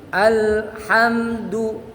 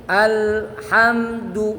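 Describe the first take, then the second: No difference in how they are said.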